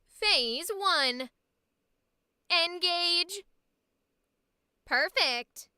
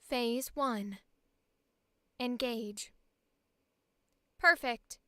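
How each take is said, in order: First: It is an energetic, Valley Girl-like AI voice. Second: It is a lower, calmer AI voice.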